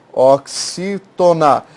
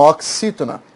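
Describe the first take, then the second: First: "Oxítona" very slow, o-xi-to-na; syllable by syllable. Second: Said in the usual way. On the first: Shown as a demonstration. Teacher spelling out the term for students, syllable by syllable. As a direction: stretch and separate each syllable of "Oxítona". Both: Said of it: "é uma oxítona".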